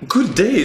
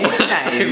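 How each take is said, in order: First: It is said in a British accent. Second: It is said in an Australian accent.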